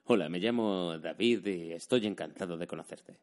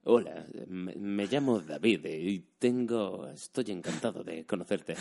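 First: Said in the usual way. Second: Spanish dubbing voice, phrases held and drawn out; dubbing-actor delivery. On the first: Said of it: "En plan, no decir". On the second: Shown as a demonstration. Imitating dubbing actors introducing themselves, phrases sustained in dubbing accent. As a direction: sustain every phrase like a film dubber, slowly. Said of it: "la frase sostenida todo el rato".

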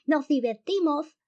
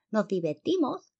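First: Very high, drawn-out lisping yell; grito casi ahogado de risa. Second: High, lisping moth declaration; polilla payaso. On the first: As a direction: yell it gleefully from above, stretched out. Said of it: "le gritó desde arriba". (grito agudísimo, ceceante y alargado) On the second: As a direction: declare it high with a silly lisp. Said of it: "declaró una tercera". (declaración aguda y ceceante) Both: A narrator's reading.

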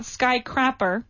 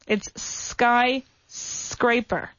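First: Skycrapper, said with a short a as in crap; wrong pronunciation. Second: Skyscraper said slowly, with scraper like scrape; slow, careful skyscraper with a clear s-c-r; correct pronunciation. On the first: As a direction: mispronounce it as skycrapper. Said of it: "It's not skycrapper". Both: Shown as a demonstration.

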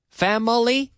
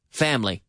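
First: FAMILY as fam-uh-lee, high and questioning; mispronounced, three syllables. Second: FAMILY as FAM-lee, falling; correct two syllables. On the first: Teacher questioning the learners' mistake, three-syllable mispronunciation. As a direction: query family with an extra middle syllable. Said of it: "We don't say family". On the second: Teacher correcting the learners' mistake, crisp two syllables. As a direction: say family without the middle vowel. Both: Shown as a demonstration.

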